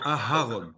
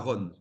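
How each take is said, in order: First: An h sound separates the two vowels. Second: The two vowels run together with no h sound. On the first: The speaker calls it right. "il faut prononcer le He" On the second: The speaker calls it wrong. "c'est pas Aaron"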